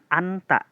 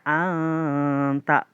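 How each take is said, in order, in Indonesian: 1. Huruf n dibaca jelas dan penuh. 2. Huruf n dibaca samar menjadi bunyi sengau. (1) "bukan anta" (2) "dibacanya anta"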